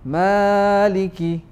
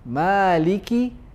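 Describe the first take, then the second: First: The first vowel is held longer than two counts. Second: The first vowel is held for two counts. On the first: The speaker calls it wrong. "not Maliki yawmiddin" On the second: The speaker calls it right. "is only two harakat"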